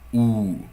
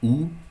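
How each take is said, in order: First: The vowel is said long. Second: The vowel is said short.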